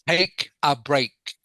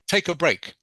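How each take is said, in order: First: The phrase is said slowly. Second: The phrase is said faster. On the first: "slow down a little bit" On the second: "Now a little bit faster"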